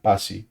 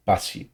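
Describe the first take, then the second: First: "pasi" short, final vowel stressed; careful Tongan word. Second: "pasi" short and soft, stress on final i; careful Tongan word. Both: Shown as a demonstration. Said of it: "she'll say it like that".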